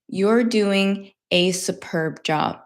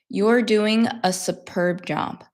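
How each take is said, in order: First: The word 'a' is long and full. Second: The word 'a' is short and reduced. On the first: "if I am thinking to speak slowly" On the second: "when I speak normally"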